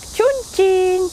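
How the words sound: The name is said with a Chinese pronunciation. "он произносится как Чунцин по-китайски"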